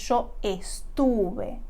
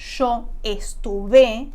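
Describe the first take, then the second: First: The stress falls on the middle syllable. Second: The stress falls on the last syllable. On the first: The speaker calls it right. "el acento está en la raíz" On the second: The speaker calls it wrong. "Si no decimos yo estuve, como en un verbo regular"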